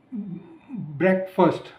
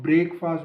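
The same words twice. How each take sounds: First: ब्रेकफास्ट slowly as BREK-fust, short first vowel; slow model of ब्रेकफास्ट with a weak second syllable; reduced-vowel pronunciation. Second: ब्रेकफास्ट as two full words, "brake-faast"; both vowels full in ब्रेकफास्ट, BRAKE-FAAST; common mispronunciation. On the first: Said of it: "इसको बहुत लोग ब्रेकफास्ट बोलते हैं". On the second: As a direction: say ब्रेकफास्ट with a long "ay" and open "aa". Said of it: "बहुत लोग ब्रेकफास्ट बोलते हैं". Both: Shown as a demonstration.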